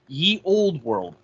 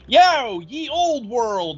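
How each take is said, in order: First: It is said at a calm, normal volume. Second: It is shouted loudly and energetically.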